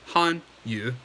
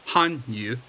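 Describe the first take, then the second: The two takes are said the same way.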